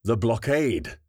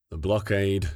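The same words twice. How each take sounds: First: "The blockade" chanted higher, eagerly; parroted with enthusiasm. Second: "The blockade" in a flat, bored fall; said flatly. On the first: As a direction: echo "The blockade" with keen enthusiasm. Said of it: "parroted with enthusiasm". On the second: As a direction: drop "The blockade" flatly, no interest. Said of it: "she said flatly". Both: A narrator's reading.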